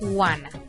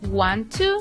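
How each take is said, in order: First: The two words are blended into one reduced word. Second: The two words are said fully and separately.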